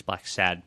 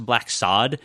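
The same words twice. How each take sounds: First: "Sad" with the short a of "cat"; short-a pronunciation. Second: "Sod" with an open ah vowel; ah-vowel pronunciation. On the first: Shown as a demonstration. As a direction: say "Sad" to rhyme with "bad". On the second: Retold or imitated. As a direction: say "Sod" to rhyme with "nod".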